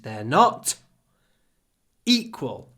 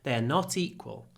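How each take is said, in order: First: There is a pause before 'equal'. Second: The words run together with no pause. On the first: The word 'equal' is emphasized. "if we want to emphasize equal, then we don't use connected speech" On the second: It is a plain statement. "We connect the words"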